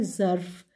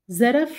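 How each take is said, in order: First: ज़र्फ़ as one syllable, zarf; correct pronunciation. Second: ज़रफ़ as two syllables, za-raf; wrong pronunciation. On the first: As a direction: teach ज़र्फ़ as a single syllable. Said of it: "सही तलफ़ुज़ है". (सही उच्चारण ज़र्फ़) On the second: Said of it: "गलत है". (गलत उच्चारण ज़रफ़) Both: Shown as a demonstration.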